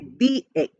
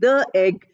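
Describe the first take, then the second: First: The word 'the' is said with 'thee'. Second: The word 'the' is said with 'thuh'. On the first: The speaker calls it right. "therefore we say the egg" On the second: The speaker calls it wrong. "that is not the correct pronunciation"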